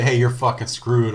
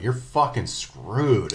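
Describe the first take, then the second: First: Tossed-off taunt, a bit louder; casual quote. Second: Slow, drawn-out deadpan threat; deadpan quote. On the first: Friend re-enacting the taunt, casually louder. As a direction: say it casually, like it's nothing. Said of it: "you say". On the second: Gamer taunting a beaten opponent, slow and deadpan. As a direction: savor each word of the taunt. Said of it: "juxtaposition of the word fucking followed by screwed". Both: Retold or imitated.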